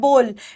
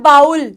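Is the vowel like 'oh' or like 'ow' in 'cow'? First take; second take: oh; ow. First: The vowel is a plain long 'oh' sound. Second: The vowel sounds like 'ow' in cow. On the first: The speaker calls it right. "इस word की correct pronunciation होती है बोल। ... ये ओ की sound होती है" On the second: The speaker calls it wrong. "कई लोग इसको बोलते हैं बाउल। ... ये गलत हो जाता है।"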